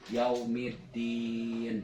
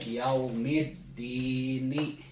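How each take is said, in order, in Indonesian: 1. Berakhir pada n; bunyi di dibaca panjang. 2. Berakhir pada vokal; bunyi di pendek. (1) "Tapi kalau nunnya tidak dibaca yaumiddin. Jadi tiga harokat atau lebih" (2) "Ini nun di J R ini yaumiddini. Cuman dua harokat"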